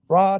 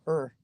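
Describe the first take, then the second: First: Only the last syllable of the word is said. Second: The word shrinks to a short vague grunt. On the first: The speaker's enthusiasm has started to fade. "you kind of don't say the whole thing" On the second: The speaker has almost no enthusiasm left. "you kind of don't say the whole thing"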